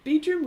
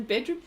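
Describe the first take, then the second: First: "bedroom" said as "beedroom"; "bedroom" imitated as "beedroom"; Kiwi vowel. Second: Said in the usual way. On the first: Shown as a demonstration. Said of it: "I heard Kiwis say". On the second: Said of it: "rather than bedroom".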